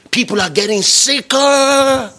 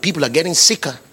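First: Higher pitch, "sicker" stretched long; drawn-out SICKER. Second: Said in the usual way. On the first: Real, not acted. Preacher warning congregation people are ill, "sicker" emphatically drawn out. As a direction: lift the line and hold out "sicker".

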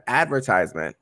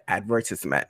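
First: Advertisement said the standard way, stress on vert, long i in tise; advertisement, the usual way with ad-VERT-ise-ment; correct pronunciation. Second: Advertisement said ad-ver-TIS-ment, short i; advertisement with short tis, the way her parents said it; childhood mispronunciation. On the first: Shown as a demonstration. Correcting herself in a school story, the standard advertisement. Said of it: "instead of". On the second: Retold or imitated. Retelling her first-grade mistake, ad-ver-TIS-ment. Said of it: "I said".

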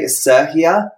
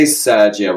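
First: Sergia said with an H sound in place of the G; Spanish-style name. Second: Sergia said the British way, with a hard G. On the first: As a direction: Sergia as "Ser-hia", breathy H and no G. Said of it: "not the G". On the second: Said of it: "I say it in a British accent". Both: Shown as a demonstration.

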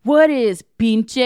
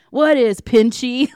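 First: PINCHE said slowly and loudly as "peen-chay"; mock bad accent, pinche ending in "-ay"; mispronounced pinche. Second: PINCHY slow, loud and higher, ending in "-ee"; drawn-out mock accent on "What is pinchy"; bad accent. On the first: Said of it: "And the guy goes". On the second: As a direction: imitate a bad accent, "pinchy" as "peen-chee". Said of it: "can't even do the bad accent".

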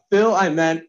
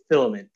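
First: "Phil, I meant" as separate words, a little higher. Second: "filament" said as one quick word; run together quickly. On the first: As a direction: set "Phil" apart from "I meant". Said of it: "I said, "Phil, I meant". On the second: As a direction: blend "Phil, I meant" into "filament". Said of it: "if you say that really quickly". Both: Shown as a demonstration.

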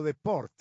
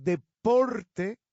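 First: "deport" sin e final, cortado; wrong deport. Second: "deporte" lento y fuerte, e final clara; correct deporte. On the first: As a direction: di "deport" a secas. ("deport" truncado) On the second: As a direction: alarga "deporte" marcando la e. ("deporte" enfático y pausado) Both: Shown as a demonstration. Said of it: "no deport".

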